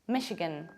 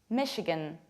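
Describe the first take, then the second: No difference in how they are said.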